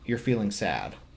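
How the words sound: The voice stays level and falls at the end. It is stated as a fact. "that's kind of straightforward as a statement"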